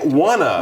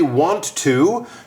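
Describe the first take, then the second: First: The words run together into one reduced word. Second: Both words are said fully and separately. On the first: The speaker calls it right. "you say wanna" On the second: The speaker calls it wrong. "you don't say want to"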